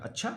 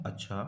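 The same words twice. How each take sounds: First: अच्छा with a rising question tune at the end. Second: Said in the usual way. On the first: Shown as a demonstration. Teacher shows students a questioning अच्छा, rising. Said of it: "प्रश्नवाचक अच्छा". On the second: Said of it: "सामान्य कथन में अच्छा".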